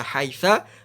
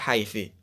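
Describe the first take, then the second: First: The word ends with an a vowel. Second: The word ends with an i vowel. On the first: "Nggak boleh" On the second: "tidak boleh"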